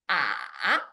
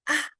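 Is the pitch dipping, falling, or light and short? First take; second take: dipping; light and short. First: The pitch dips low, then rises to middle-high. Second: It is said lightly and briefly, without a contour. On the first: "It starts middle low and dips down low and then up to middle high" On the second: "neutral tones pronunciation is light and short"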